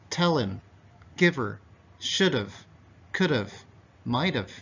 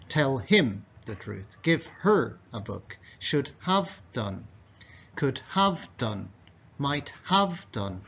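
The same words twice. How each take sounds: First: "him" as "im", "her" as "er", "have" as "av"; dropped H. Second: Every H fully pronounced: "him", "her", "have" with clear h; katakoto style. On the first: Teacher demonstrates natural fast speech, relaxed. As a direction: drop the H sounds and link. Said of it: "these H sounds are deleted". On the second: Teacher demonstrates stiff katakana English, careful. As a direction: say each word separately, H sounds kept. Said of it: "in a kind of katakoto". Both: Shown as a demonstration.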